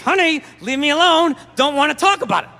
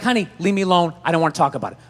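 First: It is said tensely through clenched teeth. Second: It is said calmly, without strain.

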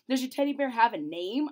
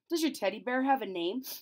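First: It is said more loudly. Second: It is said at normal loudness.

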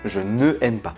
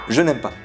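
First: The vowel of ne is kept before aime. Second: The vowel of ne is dropped before aime. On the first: The speaker calls it wrong. "et non je ne aime pas" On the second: The speaker calls it right. "On dit par exemple je n'aime pas"

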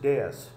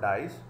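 First: The word sounds like 'day-is'. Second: The word sounds like 'dice'. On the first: The speaker calls it right. "this is डेयस" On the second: The speaker calls it wrong. "generally mispronounced as dice, this is not dice"

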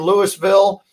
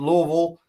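First: It is said with full, clearly opened syllables. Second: It is mumbled with the mouth barely opened. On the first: The speaker calls it wrong. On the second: The speaker calls it right. "don't open your mouth and just mumble through"

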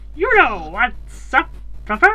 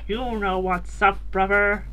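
First: The put-on voice is higher pitched. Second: The put-on voice is lower pitched. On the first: "I do not like that voice" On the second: "That's like not as high pitched"

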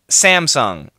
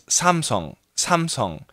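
First: The name is said with an American pronunciation. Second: The name is said with a Korean pronunciation. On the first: "But in America" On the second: "in Korea, where I lived for many, many years, the pronunciation is Samsung"

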